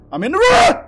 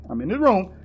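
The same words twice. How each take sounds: First: High, loud yell rising at the end; shouted announcement. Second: Said in the usual way. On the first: Real, not acted. Gamer announcing he is in the room, shouted. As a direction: holler it out, stretching the last word.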